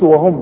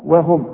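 First: The w sound is heavy and full. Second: The w sound is light and thin. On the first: The speaker calls it wrong. "ما نقولش وهم" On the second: The speaker calls it right. "هنقول وهم رقة قوي"

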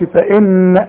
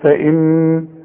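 First: The final n ends with a bouncing release. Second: The final n is held with a nasal hum. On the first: The speaker calls it wrong. "ما قلقلهاش، ما اقولش فان" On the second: The speaker calls it right. "لا اقول فان"

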